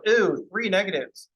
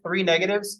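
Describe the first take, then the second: First: Slow, drawn-out mock groan at the minus signs; hammed-up disappointment; mock dismay. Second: Said in the usual way. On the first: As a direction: sigh it out like the negatives are a tragedy.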